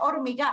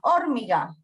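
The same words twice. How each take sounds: First: The stress is on the last syllable. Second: The stress is on the first syllable. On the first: "Si fuera aguda diría hormiga" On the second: "si fuera esdrújula diría hormiga"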